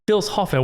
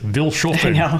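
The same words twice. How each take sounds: First: The name is read with a German pronunciation. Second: The name is read with an American pronunciation. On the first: The speaker calls it right. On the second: The speaker calls it wrong. "as Americans we're like"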